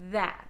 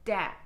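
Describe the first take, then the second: First: It begins with a soft th sound. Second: It begins with a hard d sound. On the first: The speaker calls it right. "The tongue's staying still in between my teeth" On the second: The speaker calls it wrong. "If it goes too high, I would say tis or dat"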